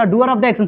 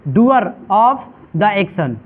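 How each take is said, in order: First: Said in the usual way. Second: "Doer of the action" very slowly, word by word; slow, spaced-out repetition. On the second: Shown as a demonstration. Teacher giving the class the answer "Doer of the action", slow spaced-out repetition. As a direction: draw out "Doer of the action" with gaps between words.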